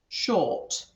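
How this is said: The R sound after the vowel is dropped. "in a different um, accent, especially in English ones, the R sound disappears"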